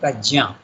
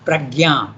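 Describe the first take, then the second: First: The middle cluster is said like 'jn'. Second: The middle cluster is said like 'gy'. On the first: This is the original Sanskrit form. The speaker calls it right. "actually the name is Sanskrit, you have to pronounce it Prajna" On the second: This is the everyday Indian-language form. The speaker calls it wrong. "In our Indian languages it is Yajna, we say. Pragya, we say"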